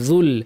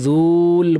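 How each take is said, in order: First: The vowel is kept short. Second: The vowel is drawn out long. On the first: The speaker calls it right. "মিলিয়ে পড়ার কারণে কিন্তু এই মাদটা পড়ে যাবে" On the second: The speaker calls it wrong. "কেউ যুল বলবেন না"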